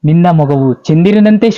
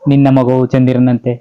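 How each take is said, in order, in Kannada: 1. ಇದನ್ನು ಭಾವನೆ ತುಂಬಿ ಅಭಿವ್ಯಕ್ತವಾಗಿ ಹೇಳಲಾಗಿದೆ. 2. ಇದನ್ನು ಭಾವನೆ ಇಲ್ಲದೆ ಸರಳವಾಗಿ ಹೇಳಲಾಗಿದೆ. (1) "ಅಲ್ಲೇನೋ ಫೀಲ್ ಉಡಿಸ್ಬೇಕು" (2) "ಸುಮ್ಮನೆ ಹಿಂಗ್ ಹೇಳಿದ್ರೆ ಹೆಂಗಿರ್ತದೆ"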